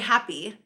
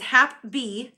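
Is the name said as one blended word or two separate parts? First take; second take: one word; two parts. First: It is blended into one word, 'happy'. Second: It is said as two parts, 'Hap' and 'B'. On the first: The speaker calls it wrong. "I always say this wrong because I say happy" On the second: The speaker calls it right. "but it's Hap B"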